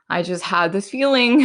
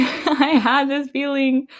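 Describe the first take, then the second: First: Said in the usual way. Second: Much higher and slow, laughing through it; laughing emphasis. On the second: Real, not acted. Telling her followers about her gut feeling, laughing. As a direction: giggle out the feeling as if it was obvious. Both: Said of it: "Guys, when I tell you I have this feeling".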